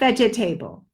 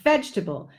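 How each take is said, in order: First: It is said with four syllables. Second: It is said with three syllables. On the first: The speaker calls it wrong. "not vegetable. There is no table" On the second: The speaker calls it right. "Three beats, three syllables"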